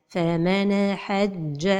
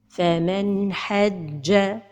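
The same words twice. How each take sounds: Both takes have the same delivery.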